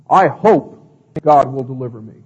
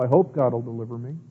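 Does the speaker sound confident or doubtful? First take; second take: confident; doubtful. First: It is said in a confident, certain tone. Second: It is said in a doubtful, uncertain tone. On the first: The speaker knows it will happen. The speaker calls it right. "You're not being wishy-washy" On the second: The speaker only wishes it might happen. The speaker calls it wrong. "Does that require much faith to say that?"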